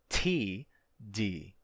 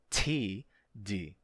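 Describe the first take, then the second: First: The T is said with a puff of air. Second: The same.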